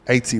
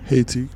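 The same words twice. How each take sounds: First: The word begins without an H sound. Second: The word begins with an H sound.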